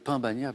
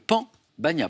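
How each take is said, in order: First: The first word has a nasal vowel. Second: The first word has an oral vowel. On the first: The speaker calls it wrong. "Ne dites pas le pain bagna" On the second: The speaker calls it right. "Stéphane l'a très bien prononcé"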